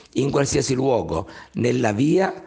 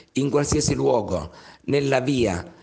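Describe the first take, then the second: Both takes have the same delivery.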